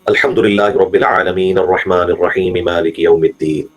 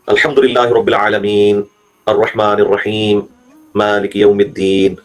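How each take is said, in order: First: The verses run together without gaps. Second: Short gaps separate the verses.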